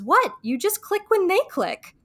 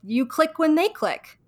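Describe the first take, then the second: First: High, surprised mock-Rachel, "click" tossed off lightly; matter-of-fact Rachel. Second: Slow, each "click" placed carefully; slow and deliberate. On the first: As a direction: say it high like it's totally obvious. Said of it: "she goes". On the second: Shown as a demonstration. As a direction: spell out "you click when they click" slowly as advice. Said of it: "thinks about it as simply as".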